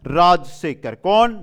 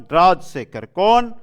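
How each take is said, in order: Both takes have the same delivery.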